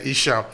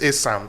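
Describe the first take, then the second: First: The name begins with an 'ee' sound. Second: The name begins with an 'a' sound. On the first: Outsiders could not pronounce the name. The speaker calls it wrong. "the European didn't know how to pronounce Asa, so they say Isha" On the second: This is the people's own name. The speaker calls it right. "the real name actually is Asa"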